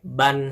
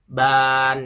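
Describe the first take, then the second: First: The vowel is kept short. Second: The vowel is drawn out long. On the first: The speaker calls it right. "dibacanya pendek" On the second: The speaker calls it wrong. "tidak dibaca panjang seperti ban, itu salah bukan"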